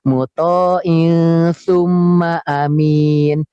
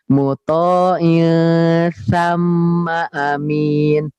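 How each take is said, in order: First: The middle word is said with a 'u' vowel. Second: The middle word is said with an 'a' vowel. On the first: The speaker calls it wrong. "jawabannya salah" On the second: The speaker calls it right. "yang benar"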